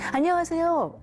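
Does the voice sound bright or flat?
bright. The voice is raised and bright. The speaker calls it right. "이거죠"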